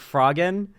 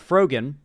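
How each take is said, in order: First: The first syllable sounds like 'frog'. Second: The first syllable sounds like 'fro' in Froyo. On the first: The speaker calls it wrong. "I always think frog like frog" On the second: The speaker calls it right. "more like Froyo, you know, like Froyo yogurt, kind of pronounced like that"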